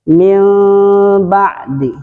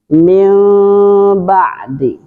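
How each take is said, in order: No difference in how they are said.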